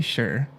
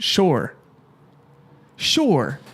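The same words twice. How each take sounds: First: "sure" said as "shur"; Canadian "sure", with an er vowel; Canadian pronunciation. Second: "Sure" said as "shore"; imitated Boston "Sure", like "shore"; Boston pronunciation. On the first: Shown as a demonstration. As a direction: say "sure" to rhyme with "her". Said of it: "No, we say". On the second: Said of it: "he says stuff like".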